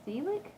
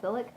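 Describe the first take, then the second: First: Selick with a long "ee", SEE-lick, rising higher; long-vowel pronunciation. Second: Selick with a short "i", SIL-ick; short-vowel pronunciation. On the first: Vlogger testing a director's surname, questioning SEE-lick. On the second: Vlogger testing a director's surname, short-vowel SIL-ick. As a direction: try Selick with a quick short first vowel. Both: Shown as a demonstration. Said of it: "I wanna say it's Selick".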